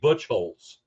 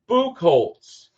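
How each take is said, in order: First: The first syllable sounds like butch. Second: The first syllable sounds like book. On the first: "in Kentucky, that would be Butchholz" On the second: "That's like Booker"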